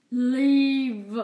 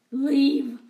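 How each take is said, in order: First: Loud, drawn-out menacing order; menacing command. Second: Loud, falling order to leave; loud command. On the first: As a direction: stretch it out as a threat. Rat King repeats order. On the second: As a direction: bark it as an order. Rat King orders cats out. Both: Acted.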